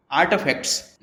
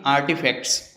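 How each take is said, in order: First: आर्टिफैक्ट्स with a half-spoken American T; American आर्टिफैक्ट्स, T barely touched; US accent. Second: आर्टिफैक्ट्स with a full Indian T, the form to avoid; Indian accent. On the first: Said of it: "हम यहाँ ट को आधा ही बोलते हैं". (अमेरिकी लहजे में आर्टिफैक्ट्स) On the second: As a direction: Indian English आर्टिफैक्ट्स, hard T. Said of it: "ना कि". (भारतीय लहजे में आर्टिफैक्ट्स) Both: Shown as a demonstration.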